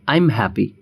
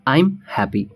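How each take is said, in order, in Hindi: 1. 'I am' एक ही syllable में छोटा होकर बोला जाता है। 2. 'I am' एक ही सिलेबल में छोटा होकर बोला जाता है।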